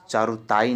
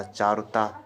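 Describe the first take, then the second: First: "चारुताई" with an extra ee at the end; wrong form demonstrated. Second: "चारुता" ending cleanly on long taa; correct form demonstrated. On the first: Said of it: "चारुताई नहीं होता". ("चारुताई" के अंत में ई जोड़कर) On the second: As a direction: stop "चारुता" at taa, without ee. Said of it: "चारुता है". ("चारुता" अंत में केवल ता) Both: Shown as a demonstration.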